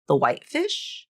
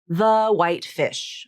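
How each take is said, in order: First: The voice rises at the end. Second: The voice falls at the end. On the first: It is a yes/no question asking for clarification. "turn the intonation up at the end, and now it becomes a question" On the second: It is a complete statement. "You take a statement"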